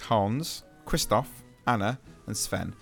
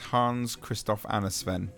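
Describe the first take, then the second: First: The names are said slowly, one by one. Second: The names are said quickly, run together.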